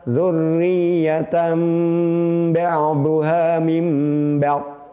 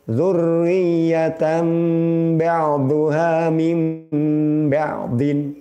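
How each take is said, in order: First: The last word stops short without its ending. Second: The last word keeps its full '-in' ending. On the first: The reading stops at the end of the verse. "Yang kedua dengan waqaf" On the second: The reading continues without stopping. "Pertama tanpa waqaf"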